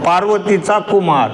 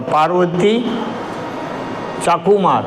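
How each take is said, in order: First: The break comes after the syllable 'cha'. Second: The break comes before the syllable 'cha'. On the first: "पार्वतीचा Kumar म्हटलं तर काय अर्थ होतो? पार्वतीचा मुलगा" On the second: "तो जो चा आहे तो शब्द आपण तिकडे टाकला"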